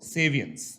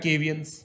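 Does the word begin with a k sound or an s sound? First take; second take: s sound; k sound. First: The word begins with an s sound. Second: The word begins with a k sound. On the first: The speaker calls it right. "Pronunciation इसका सेवियंस होता है" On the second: The speaker calls it wrong. "केवियन सुनने में अच्छा लगता है"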